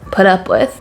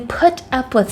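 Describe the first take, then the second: First: The words are run together into one. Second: Each word is said separately and clearly.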